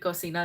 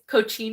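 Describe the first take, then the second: First: It is pronounced the Spanish way. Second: It is pronounced the Italian way. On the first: "I'm Mexican, so I'm thinking Cocina" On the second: "It's Cochina, I think"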